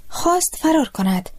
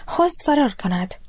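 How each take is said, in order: First: خواست فرار کند lifted higher, stress on خواست; the urge to flee, stressed; emphatic repeat. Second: Said in the usual way. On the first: A narrator's reading.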